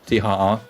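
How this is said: The letters are named with German letter names.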